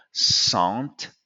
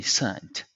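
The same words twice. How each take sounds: First: SANT with a nasal "on" vowel; French-style "sont" with sounded t for SANT; SANT, vowel through the nose. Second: SCENT with a short e, "sent"; correct English vowel. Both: Shown as a demonstration. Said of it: "is actually scent".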